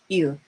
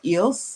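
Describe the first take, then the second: First: The final s is silent. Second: The final s is clearly sounded. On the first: The speaker calls it right. "the S is silent" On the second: The speaker calls it wrong. "it's not pronounced ills"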